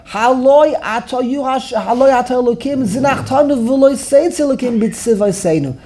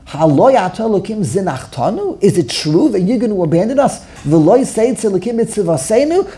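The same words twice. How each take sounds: First: "Haloi ata Elokim zinachtanu" declared, falling at the end; "Haloi ata" asserted, with no questioning rise; read as a statement. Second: "zinachtanu" and "b'tzivayseinu" lifted in questioning rises; each clause of "Haloi ato Elokim zinachtanu" turned into a question; rhetorical question. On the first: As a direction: state "v'loi seitz Elokim b'tzivayseinu" as settled fact. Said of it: "he thought David said this as a statement". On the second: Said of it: "David, the inflection". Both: Shown as a demonstration.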